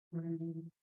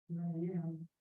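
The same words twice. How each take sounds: The two takes are said the same way.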